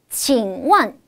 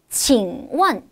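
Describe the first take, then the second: No difference in how they are said.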